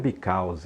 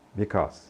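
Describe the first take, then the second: First: An extra vowel is sounded after the final consonant. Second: The word ends cleanly on the consonant. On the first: The speaker calls it wrong. "Não diga because" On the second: The speaker calls it right. "esse Ezinho no final não é pronunciado"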